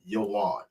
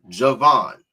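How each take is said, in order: First: The name starts with Y and has no V. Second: The name starts with J and has a V. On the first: This is the original Hebrew form of the name. The speaker calls it right. "you'll read verbatim Yoan" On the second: This is how an English Bible renders the name. The speaker calls it wrong. "in your K J V is, is transliterated as Javan"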